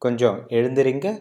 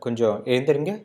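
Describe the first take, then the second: First: It is said in a polite tone. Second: The same.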